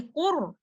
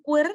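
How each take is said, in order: First: QUR dark and rounded, like 'qor'; correct heavy qur. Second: QUR thinned to sound like 'quir'; wrong light qur. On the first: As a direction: say 'qur' with a thick full-mouthed R. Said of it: "say qur". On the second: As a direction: say 'qur' with a light, fronted R. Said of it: "instead of saying qur". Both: Shown as a demonstration.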